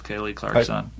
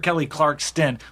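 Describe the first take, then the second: First: The surname is said without a T sound. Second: The surname is said with a T sound. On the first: The speaker calls it right. "There's no T actually" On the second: The speaker calls it wrong. "Every time I hear it, I hear [name]"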